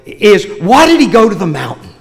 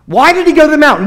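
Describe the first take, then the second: First: Said in the usual way. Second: Higher, pressing the question to the congregation; preacher repeating the question for emphasis; emphatic repeat. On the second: Real, not acted. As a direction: lift the whole question and lean on "he".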